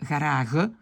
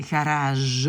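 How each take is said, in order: First: Garage with throaty g at the end; garage with scraped Dutch g, not zh; wrong Dutch g. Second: Garage ending in a long French zh; drawn-out garage, soft zh ending. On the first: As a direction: mispronounce garage ending in a guttural g. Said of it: "on ne dit pas garage". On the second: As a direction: say garage slowly with the French j sound. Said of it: "On dit garage". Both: Shown as a demonstration.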